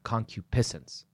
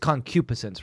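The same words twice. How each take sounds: First: The stress is on a different syllable. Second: The stress is on the third-from-last syllable. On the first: The speaker calls it wrong. "rather than" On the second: The speaker calls it right. "I'm pretty sure that the accent is on the antepenult of that word"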